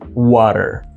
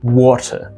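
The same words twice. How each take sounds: First: It is said with an American accent. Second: It is said with a British accent.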